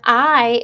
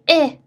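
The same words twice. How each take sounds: First: The vowel is long, like the letter name. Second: The vowel is short, like in itch. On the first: "if the open syllable says its name" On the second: "like itch"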